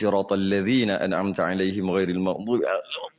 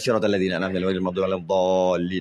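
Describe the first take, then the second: First: It is recited slowly and carefully. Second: It is recited quickly and hurriedly.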